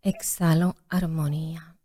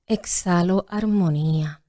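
First: Whispered meditation. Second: Yoga teacher voice. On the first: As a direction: whisper the exhale like a yoga guide. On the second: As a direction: gently guide the exhale. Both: Shown as a demonstration. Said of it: "en tu voz de maestra de yoga".

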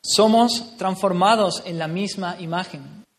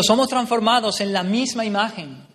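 First: Each word spelled out slowly; slow emphatic repeat. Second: Declaimed scripture, louder and higher; loud quote. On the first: Preacher repeating the verse slowly so the church takes it in. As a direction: let every word land, slowly. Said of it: "repeated slowly for emphasis". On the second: Preacher reading the verse aloud to the church, proclaiming. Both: Real, not acted.

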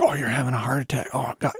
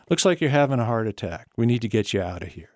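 First: Panicked. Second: Steady, unhurried reassurance; calm, matter-of-fact. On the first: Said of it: "it's just like". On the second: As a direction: calmly take charge. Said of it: "I just loved the way he said it". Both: Retold or imitated.

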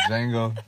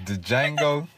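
First: "Django" said as Jango, no D; silent D in Django. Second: "the Django", with the D voiced separately before Django; D sounded in Django. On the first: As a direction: drop the D and start "Django" on the J. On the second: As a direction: say "the Django" as if the silent D were its own syllable. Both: Shown as a demonstration. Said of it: "D is silent".

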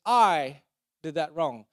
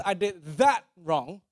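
First: Slow, loud "I", pause, then "did that wrong" falling; stress on I. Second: Slow, with "that" punched louder and "wrong" after it; stress on THAT. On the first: Preacher contrasting shame with guilt, stress on I. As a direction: hit "I" hard, then pause. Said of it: "Shame says". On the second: Preacher contrasting guilt with shame, stress on THAT. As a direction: hit the word "that". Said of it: "So guilt says". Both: Shown as a demonstration.

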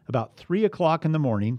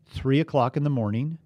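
First: Three lifted and stretched; stress on three. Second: Three o'clock rising for emphasis; repeat with stress on three. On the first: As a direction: lean on three. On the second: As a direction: point at three again. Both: Shown as a demonstration. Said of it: "pay attention".

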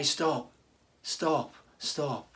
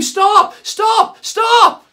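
First: Low, soft, firm stop with falling ends; quiet stop. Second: High, loud alarmed scream to halt someone; screaming stop. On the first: Pastor showing how believers gently warn a brother, quiet and firm. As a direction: say it gently but firmly, like a loving rebuke. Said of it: "we are called to say". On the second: Pastor acting out warning a friend of a shark, desperate scream. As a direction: scream it to stop them jumping. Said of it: "we would scream". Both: Retold or imitated.

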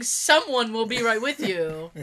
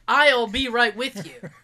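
First: "Someone" picked out, slow mocking quote; stress on Someone. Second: "I'll" punched loud and drawn out; stress on I'll. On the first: Patient mocking the receptionist's wording, stress on "Someone". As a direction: lean on "Someone" as the silly word. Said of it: "what's the point in saying". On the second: Retold or imitated. Patient correcting the receptionist's wording, stress on "I'll". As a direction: hit "I'll" hard, slowly, as the correction. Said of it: "You could have just said".

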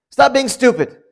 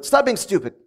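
First: Higher, louder, curt put-down; blunt put-down. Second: Said in the usual way. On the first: Retold or imitated. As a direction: snap it at a foolish brother. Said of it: "that's how he would say it to his brother". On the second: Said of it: "you tell your brother".

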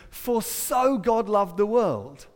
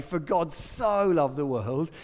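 First: "so" moved up front and held, slow and deliberate; stress on early SO. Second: "so" leaned on after "God", slowly; slow line with the weight on "so"; stress on SO. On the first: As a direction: spell out the reordering, "so" weighted before "God". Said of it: "It actually says". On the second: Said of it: "It doesn't say". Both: Shown as a demonstration.

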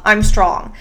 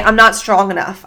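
First: A confident self-affirmation; firm affirmation. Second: Said in the usual way. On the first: Shown as a demonstration. Podcast host coaching listeners, firm and sure. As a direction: say it like you mean it, steady and sure. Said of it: "I want you to say". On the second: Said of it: "if you say".

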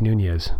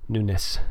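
First: Nunez said as noo-NEZ with a Spanish z ending. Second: Nunes said as NOO-ness with a soft s ending; Nunes pronounced his way. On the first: Host insisting on the original pronunciation, noo-nez. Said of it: "wants his name to be pronounced Nunes". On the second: Host mimicking the congressman's preferred pronunciation, noo-ness. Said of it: "I'm just talking like that because". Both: Shown as a demonstration.

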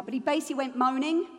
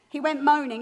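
First: Said in the usual way. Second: "He went moaning" said louder, weight on "moaning"; stressed repeat. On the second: Shown as a demonstration. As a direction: hit "moaning" hard the second time.

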